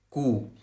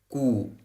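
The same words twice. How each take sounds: Both takes have the same delivery.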